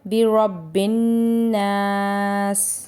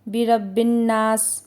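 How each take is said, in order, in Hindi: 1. नासिक n को दो मात्रा तक खींचा जाता है। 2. नासिक n को जल्दी में पढ़ा जाता है और छोटा काट दिया जाता है। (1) "सही तरीका है" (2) "हम अक्सर जल्दी में बिरब्बिन नास पढ़ लेते हैं"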